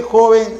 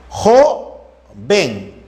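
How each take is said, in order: First: Said in the usual way. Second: JOVEN split as JO, pause, VEN; syllable by syllable. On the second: Shown as a demonstration. Teacher checking joven for vowel sequences, syllable by syllable. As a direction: slowly separate JOVEN into two syllables.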